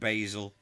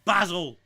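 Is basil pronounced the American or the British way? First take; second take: American; British. First: The word is said the American way. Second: The word is said the British way. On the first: The speaker calls it wrong. "Americans, the herb, they call it basil" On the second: The speaker calls it right. "it's fucking basil"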